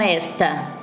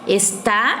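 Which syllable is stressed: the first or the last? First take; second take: first; last. First: The stress is on the first syllable. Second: The stress is on the last syllable. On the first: It is the demonstrative meaning 'this'. The speaker calls it wrong. "e não esta" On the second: It is the verb meaning 'is'. The speaker calls it right. "eu tenho que falar está"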